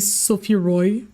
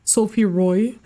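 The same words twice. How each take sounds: First: The name is said with English pronunciation. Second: The name is said with English pronunciation.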